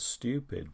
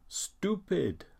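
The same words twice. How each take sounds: First: The word is said in the speaker's usual accent. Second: The word sounds like a German speaker's pronunciation. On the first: "we would pronounce that as stupid" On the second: "that is pretty much how a, a German speaker would, would pronounce that word"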